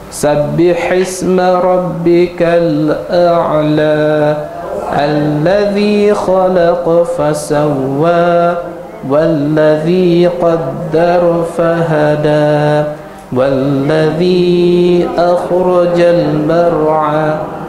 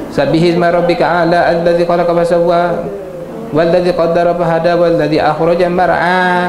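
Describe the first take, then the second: First: It is recited slowly and carefully. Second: It is recited quickly and hurriedly. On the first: The reader takes care over every letter. The speaker calls it right. "saya ni lebih kepada jaga tajwid, jaga makhraj huruf" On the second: The reader wants to finish quickly. The speaker calls it wrong. "jangan ... tak mau gitu"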